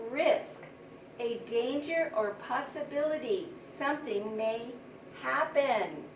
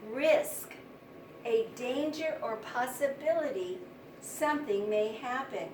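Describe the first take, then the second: No difference in how they are said.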